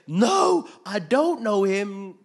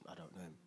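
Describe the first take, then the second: First: High, full-volume outburst; shouted denial. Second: Very soft, low dismissal; muted denial. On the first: Cornered Peter denying Jesus to accusers, drawn-out high shout. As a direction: yell it, stretching out the words. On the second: Peter dodging the repeated question, low hushed denial. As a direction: drop the voice and deny it under your breath. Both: Acted.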